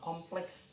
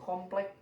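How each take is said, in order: First: The word ends with a ks sound. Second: The word ends with a plain k sound. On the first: The speaker calls it right. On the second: The speaker calls it wrong.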